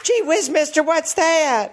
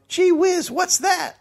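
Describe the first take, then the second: First: Put-on higher, milder gee-whiz boy; wholesome 1950s kid. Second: Put-on high gee-whiz kid voice; wholesome 1950s kid. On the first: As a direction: repeat it as a wide-eyed boy. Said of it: "So he was on a movie lot?". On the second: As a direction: chirp it like a wide-eyed boy. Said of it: "boy stood in the road and yelled".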